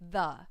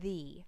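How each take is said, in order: First: The vowel is a short, weak uh sound. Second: The vowel is a long ee sound. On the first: "If the comes before a consonant sound, you should pronounce it the" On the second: "you should make that long E sound, as in the"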